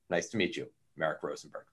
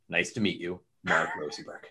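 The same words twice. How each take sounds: First: The greeting sounds businesslike and reserved. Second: The greeting sounds intense and forceful. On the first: The speaker's thoughts are hard to read. "the owl is very businesslike and very professional" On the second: The speaker is closing in on the listener. "There's like an eagle intensity, like you are prey"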